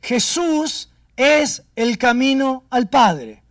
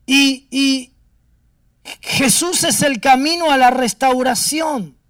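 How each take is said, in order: First: Slow, weighty words of the Spirit; a hushed, slow divine message; slow solemn quote. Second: Raised, ringing preacher's declaration; a full-voiced climax of the sermon; loud proclamation. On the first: Retold or imitated. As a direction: lay each word down slowly and gravely. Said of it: "Y me dice". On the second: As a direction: proclaim it loudly to the congregation.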